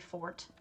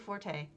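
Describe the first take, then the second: First: It is said as a single syllable, fort. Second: It is said with two syllables, for-tay. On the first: The speaker calls it right. "It's actually fort when you say it that way. And it sounds terrible when you say it the proper way" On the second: The speaker calls it wrong. "So I'm going to just say forte, even though that's wrong"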